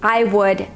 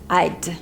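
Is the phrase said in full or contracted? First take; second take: full; contracted. First: It is said as two full words. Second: It is said as one contracted word.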